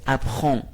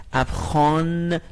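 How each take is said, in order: First: "اپخان" ending in a rounded nasal "on", no full n; short "اپخان" as "ap-khon", French nasal ending; French nasal vowel. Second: "اپخان" with an open aa and a long, fully sounded final n; slow "اپخان" ending on a hard n rather than a nasal vowel; non-nasal full N. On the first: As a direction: let the last vowel of "اپخان" stick in the nose. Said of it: "ولی حالت نزل هست". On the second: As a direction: pronounce "اپخان" as spelt, drawing out the closing n. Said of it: "نیست". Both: Shown as a demonstration.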